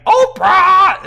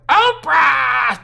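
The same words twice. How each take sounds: First: Very high, very loud screech; piercing screeched call. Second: High, loud screeched answer; loud shouted echo of the call; screeching back. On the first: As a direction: screech the name at full volume. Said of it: "in a screeching voice". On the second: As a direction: screech it right back, a little less wild. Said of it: "Justin screeches back". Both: A narrator's reading.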